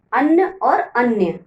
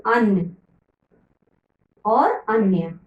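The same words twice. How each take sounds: First: अन्न और अन्य said slowly, अन्न short and अन्य with a clear -य ending; slow the pair down so the difference shows; careful contrast. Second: Said in the usual way. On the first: Shown as a demonstration. Teacher to children, slowly contrasting अन्न and अन्य. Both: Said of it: "थोड़ा थोड़ा इसमें अंतर है".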